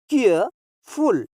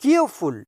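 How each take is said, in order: First: careful slowly, with a pause before फुल; two separate beats in careful; split into parts. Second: Said in the usual way. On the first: Shown as a demonstration. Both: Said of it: "ये टू syllable adjectives हैं".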